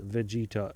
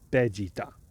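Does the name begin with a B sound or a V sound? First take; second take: V sound; B sound. First: The name begins with a V sound. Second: The name begins with a B sound. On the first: The speaker calls it wrong. "Vegeta is not pronounced Vegeta in Japanese" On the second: The speaker calls it right. "it's pronounced Vegeta"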